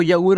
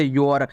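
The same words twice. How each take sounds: First: यऊर split as "ya-oor"; wrong reading of YOUR. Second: योर with one long "o"; correct reading of YOUR. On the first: Teacher warning learners off a misreading, यऊर as "ya-oor". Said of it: "नहीं पढ़ना". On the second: Teacher giving learners the right reading, योर as "yor". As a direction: say योर as "yor", lower pitched. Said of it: "इसे आपको क्या पढ़ना है". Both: Shown as a demonstration.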